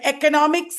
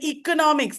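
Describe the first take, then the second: First: "economics" opening on a short "eh"; short-e pronunciation. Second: "economics" opening on a long "ee"; long-e pronunciation. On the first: Teacher contrasting two sayings of a word, short-e pronunciation. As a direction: say "economics" as "eh-conomics". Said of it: "that's wrong". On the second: Teacher contrasting two sayings of a word, long-e pronunciation. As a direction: say "economics" as "ee-conomics". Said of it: "meaning is not different there". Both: Shown as a demonstration.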